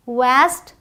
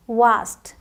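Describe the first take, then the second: First: वास्ट with front "ae", as "vaest"; American pronunciation. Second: वास्ट with long "aa", as "vaast"; British pronunciation. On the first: Teacher contrasts American with British, वास्ट as American "vaest". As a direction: say वास्ट with the vowel of cat. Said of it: "American English में ए का sound". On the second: Teacher contrasts British with American, वास्ट as British "vaast". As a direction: say वास्ट with the vowel of father. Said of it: "British English में आ का sound". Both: Shown as a demonstration.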